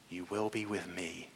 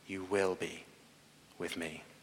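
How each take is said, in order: First: The stress falls on the words with me. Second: The stress falls on the word will. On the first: It promises closeness. "The intimacy" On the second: It is a certain promise. "The promise"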